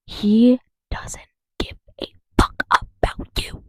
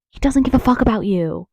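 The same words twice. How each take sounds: First: Slow whisper, word by word; emphatic whisper. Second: Said in the usual way. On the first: Real, not acted. Spelling it out for Trump voters, emphatic whisper.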